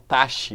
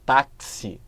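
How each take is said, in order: First: The x is said as a single sound. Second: The x is said as k plus s. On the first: The speaker calls it wrong. "eu não falo taxi" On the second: The speaker calls it right. "eu falo táxi. Eu tenho esses dois sons aqui"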